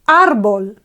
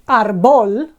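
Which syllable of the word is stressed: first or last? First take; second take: first; last. First: The stress is on the first syllable. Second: The stress is on the last syllable. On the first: The speaker calls it right. "it's árbol" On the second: The speaker calls it wrong. "we don't say arbol... normally we would expect bol to be the accentuated syllable"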